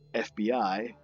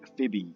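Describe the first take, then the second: First: Each letter is spoken separately. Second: The letters are blended into one word. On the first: It is an initialism, not an acronym. The speaker calls it right. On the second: It would be an acronym. The speaker calls it wrong.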